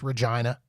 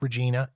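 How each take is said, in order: First: The middle syllable sounds like 'jine'. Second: The middle syllable sounds like 'jeen'. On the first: The speaker calls it right. "It is pronounced Regina, and it it rhymes with what you think it rhymes with" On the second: The speaker calls it wrong. "It is not pronounced Regina"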